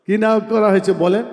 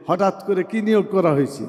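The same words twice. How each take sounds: First: Quick question pitched up toward the end; brisk, insistent repeat that demands an answer; prompting the audience. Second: Said in the usual way. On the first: Real, not acted. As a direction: fire the question back at the crowd, rising.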